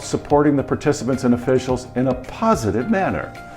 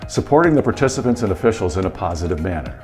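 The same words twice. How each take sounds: First: Several words are said with strong emphasis. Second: The words are said flatly without emphasis.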